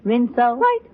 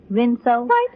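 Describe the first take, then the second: No difference in how they are said.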